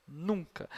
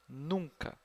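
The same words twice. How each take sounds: The two takes are said the same way.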